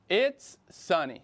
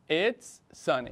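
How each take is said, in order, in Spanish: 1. Las palabras 'it is' se contraen. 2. Las palabras 'it is' se contraen.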